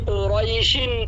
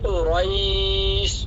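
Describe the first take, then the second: First: The word runs on with a short vowel. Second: The word stops with a drawn-out vowel. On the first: The reading continues into the next verse. "যদি না থামি মিল্লা পড়ি" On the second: The reading stops at the end of the verse. "যদি থামি লিইলাফি কুরাইশ একালিপ টানবো"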